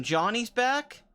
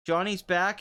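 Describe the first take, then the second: First: Higher and slow, drawn out with glee; excited. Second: Said in the usual way. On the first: Real, not acted. Fan cheering Johnny's return in Cobra Kai, excited and drawn out. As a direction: savour the news like a hype man. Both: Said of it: "It's awesome".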